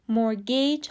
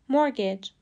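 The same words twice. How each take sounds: First: مورگیج with a long second vowel, "mor-GAYCH"; wrong pronunciation. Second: مورگیج as MOR-gij, short unstressed ending; correct pronunciation. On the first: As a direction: stretch the end of مورگیج into "gaych". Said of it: "هم غلطه". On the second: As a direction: say مورگیج with a quick falling "gij". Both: Shown as a demonstration.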